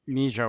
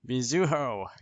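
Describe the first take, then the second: First: The name is said in two syllables. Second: The name is said in three syllables. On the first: The speaker calls it wrong. "Not Mijo or whatever I was saying" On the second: The speaker calls it right. "with a U in the middle"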